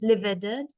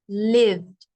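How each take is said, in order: First: The word is said as two syllables. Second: The word is said as one syllable. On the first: The speaker calls it wrong. "not livid, because then that's two or three sounds" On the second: The speaker calls it right. "the E becomes silent, and it has one syllable, one sound"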